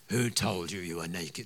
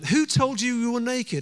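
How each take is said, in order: First: It is said in a put-on character voice. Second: It is said in his normal speaking voice.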